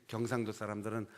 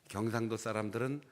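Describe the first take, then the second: The two takes are said the same way.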